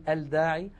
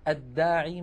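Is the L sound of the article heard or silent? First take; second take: heard; silent. First: The article's l is clearly pronounced before d. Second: The article's l merges into the following d. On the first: The speaker calls it wrong. "ولا نقول" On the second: The speaker calls it right. "كانت العرب تدغم لام التعريف فيها"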